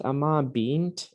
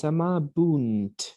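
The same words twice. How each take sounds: First: Slow AMABINT with an ee in the ending; wrong form amabint. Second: Slow AMABUNT, ending "boont"; corrected amabunt, U in the last syllable. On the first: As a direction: stretch amabint, last syllable "beent". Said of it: "isn't amabint, it's amabunt". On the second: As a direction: stretch amabunt with an oo sound. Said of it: "with a U". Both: Shown as a demonstration.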